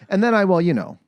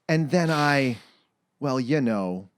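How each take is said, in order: First: It is run together without any pauses. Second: It is said with pauses between phrases.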